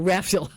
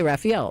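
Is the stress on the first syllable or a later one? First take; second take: first; later. First: The stress is on the first syllable. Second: The stress is not on the first syllable. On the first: The speaker calls it right. "Put the accent on the first syllable" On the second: The speaker calls it wrong. "I always say Raphael"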